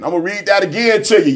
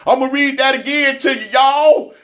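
First: Said in the usual way. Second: Pushed up higher to grab the room; higher, insistent repeat. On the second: Shown as a demonstration. Telling his listeners he'll reread it, pitched higher and insistent. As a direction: say it again, higher, so y'all listen.

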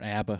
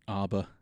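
First: "abba" said another way; second attempt at "abba"; alternate pronunciation. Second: "abba" said one way; first attempt at "abba"; alternate pronunciation. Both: Shown as a demonstration. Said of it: "How do you pronounce that?".

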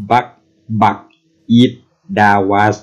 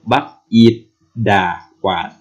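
First: "บัก อีท ดาวัส" with no tone changes, syllable by syllable; without tones. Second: "บัก อีท ดา วาด" in separate syllables with deliberate Thai tones; reversed tones added. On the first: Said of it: "แบบไม่ใส่เสียง". (พูด "บัก อีท ดาวัส" แบบไม่ใส่เสียงวรรณยุกต์) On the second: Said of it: "ทีนี้ก็ต้องกลับ คือเป็นโท สามัญ เอก เอก". (พูด "บัก อีท ดา วาด" ใส่วรรณยุกต์กลับด้านทีละคำ) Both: Shown as a demonstration.

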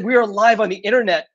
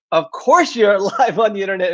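First: Said in the usual way. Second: Lightly imitating kids' mocking, laugh in the voice; mildly mock it with a chuckle; teasing mockery. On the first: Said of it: "made fun of me". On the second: Kids making fun of their parent's livestream line, lightly teasing. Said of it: "laughed and made fun of me".

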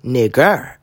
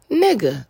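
First: "Nigger" with a hard "-er" ending and a rising tune; the hard-r "Nigger" that gets to her. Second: "Nigga" with a soft open "-a" ending; casual "Nigga", no r at the end. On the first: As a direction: land the r in "Nigger" hard and let it rise. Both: Shown as a demonstration. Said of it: "it's the ending".

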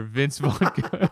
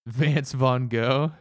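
First: Said in the usual way. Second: VANCE with a flat 'an' vowel in Vance Van Gogh; slowly misname him Vance Van Gogh; Atticus's mispronunciation. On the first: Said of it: "You went with Vance". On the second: Retold or imitated. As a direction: say Vance, rhyming with dance, for Vince. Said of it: "One time he referred".

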